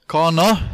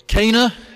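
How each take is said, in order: First: It is said in a non-American accent. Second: It is said in an American accent.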